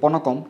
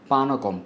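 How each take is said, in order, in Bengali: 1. প্রথম স্বরধ্বনিটি ছোট 'o'-এর মতো শোনায়। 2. প্রথম স্বরধ্বনিটি খোলা দীর্ঘ 'a'। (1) "অনেকে পনকম বলে থাকে" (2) "কিন্তু এটি আসলে পানকম"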